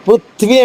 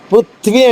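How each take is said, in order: First: The th sound joins straight into v, two syllables. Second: The same.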